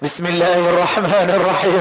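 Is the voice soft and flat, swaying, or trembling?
trembling. The voice trembles as if shivering from cold. "كأنه بيرتعش من البرد"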